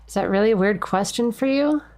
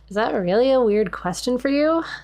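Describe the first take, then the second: First: It is read in a plain, ordinary voice. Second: It is read in a put-on Valley Girl voice.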